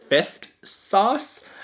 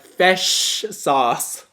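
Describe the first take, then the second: First: The first word ends with an 'st' sound. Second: The first word ends with an 'sh' sound. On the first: The speaker calls it wrong. "he always says fist sauce" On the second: The speaker calls it right. "I'm like"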